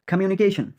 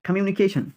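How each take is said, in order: Both takes have the same delivery.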